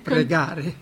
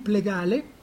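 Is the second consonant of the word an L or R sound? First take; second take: R; L. First: The word is said with an R sound. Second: The word is said with an L sound. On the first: This is the adult form of the word. "non riusciva ancora a pronunciare la R" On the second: A small child who cannot yet say R says it. "Allora diceva"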